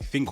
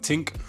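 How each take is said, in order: First: The word starts with a soft TH sound. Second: The word starts with a hard T sound.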